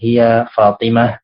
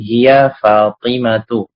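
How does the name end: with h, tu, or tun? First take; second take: h; tu. First: The name ends with a silent-vowel h sound. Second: The name ends with a short tu sound. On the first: "dalam percakapan ... mensukunkan akhirnya" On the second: "tidak boleh ditanwin menjadi hiya Fatimatu"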